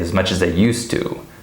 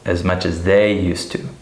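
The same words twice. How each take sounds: First: The word 'they' is unstressed and shortened. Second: The word 'they' is stressed and full. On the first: The speaker calls it right. "they is uh, reduced, it's shortened" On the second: The speaker calls it wrong. "pronouns are not stressed. So we don't say"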